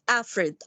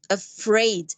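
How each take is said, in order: First: The stress is on the first syllable. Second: The stress is on the second syllable. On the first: The speaker calls it wrong. "not the first syllable" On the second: The speaker calls it right. "stress here in this word, it's put on the second syllable"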